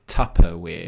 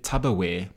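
First: "Tupperware" with a crisp P, not B; correct pronunciation. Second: "Tupperware" with a B, as tubberware; imitated mispronunciation. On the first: Shown as a demonstration. Explaining the guy's mistake, "Tupperware" said with a clear P. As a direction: stress the P in "Tupperware". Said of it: "with a P". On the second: Quoting a podcast guy, "Tupperware" mispronounced as tubberware. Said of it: "he's been saying Tupperware".

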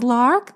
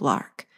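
First: Name squealed high with a rise. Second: Lark dropped low and soft; quiet firm name. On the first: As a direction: call Lark up high, rising. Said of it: "Lil squealed". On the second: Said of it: "Lil instructed adamantly". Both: Acted.

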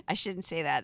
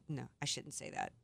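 First: Said in the usual way. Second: Much softer, pulled back, almost to herself; quiet self-correction. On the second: Real, not acted. Host reins herself in after a cheeky remark, quietly. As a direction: take it back under your breath.

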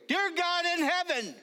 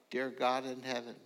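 First: High, loud start of a prayer; praying out loud. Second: Said in the usual way. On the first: Retold or imitated. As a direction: lead the prayer aloud, high and strong. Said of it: "And so I began to pray". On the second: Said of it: "they all prayed out".

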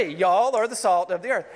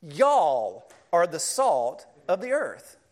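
First: Y'all punched louder at the start; louder emphatic repeat of the verse; stress on y'all. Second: Y'all slow and weighty, falling; slow emphatic reading of the verse; stress on y'all. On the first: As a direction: hit y'all hard. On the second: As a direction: lean on y'all, slowly. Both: Shown as a demonstration. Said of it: "want to emphasize it".

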